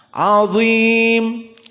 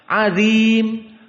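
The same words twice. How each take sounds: First: The consonant is heavy, with a full, raised mouth. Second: The consonant is light, with no mouth fullness. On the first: The speaker calls it right. "dalam keadaan at-tafkhim, dia dikentalkan" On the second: The speaker calls it wrong. "dibaca dalam keadaan tarkik"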